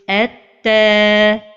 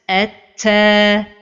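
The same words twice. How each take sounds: First: The t is released cleanly. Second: The t is released with breath. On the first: The speaker calls it right. "the right pronunciation is" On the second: The speaker calls it wrong. "give hams"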